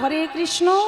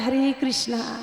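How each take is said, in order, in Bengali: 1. কৃষ্ণ শব্দের শেষে কোনো দীর্ঘ স্বর যোগ হয় না। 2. কৃষ্ণ শব্দের শেষে একটি দীর্ঘ 'aa' স্বর যোগ হয়। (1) "আমরা বলি" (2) "তারা বলে"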